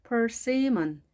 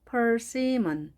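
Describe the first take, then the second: The two takes are said the same way.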